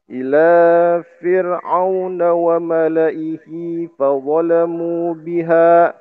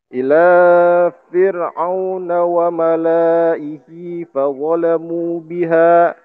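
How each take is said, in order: First: The 'la' in malaihi has a short vowel. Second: The 'la' in malaihi has a long vowel. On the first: The speaker calls it right. "Jadi wa malaihinya itu nggak panjang" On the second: The speaker calls it wrong. "itu salah. Lanya harusnya pendek"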